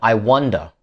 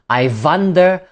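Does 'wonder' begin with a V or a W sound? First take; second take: W; V. First: 'Wonder' begins with a W sound. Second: 'Wonder' begins with a V sound. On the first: The speaker calls it right. "instead of I wonder" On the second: The speaker calls it wrong. "you may be pronouncing it like this"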